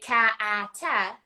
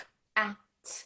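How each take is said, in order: First: Each consonant sound ends with an extra vowel. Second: Each consonant sound is clipped with no vowel. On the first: The speaker calls it wrong. "they used to say" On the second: The speaker calls it right. "now we do the clear"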